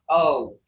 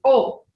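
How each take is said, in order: First: O as the English letter name; English long O. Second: O said short and rounded, Creek style; Creek O sound. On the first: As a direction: glide O like English "oh". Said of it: "been learning English all these years". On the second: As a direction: say O the Creek way, not English. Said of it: "not O". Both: Shown as a demonstration.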